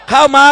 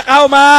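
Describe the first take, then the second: No difference in how they are said.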